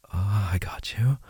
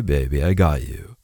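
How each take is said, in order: First: Reassuring whisper. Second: Said in the usual way. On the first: Acted. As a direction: repeat it as a soft whisper.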